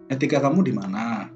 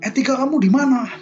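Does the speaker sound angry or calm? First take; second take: calm; angry. First: The question is said in a calm tone. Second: The question is said in an angry tone.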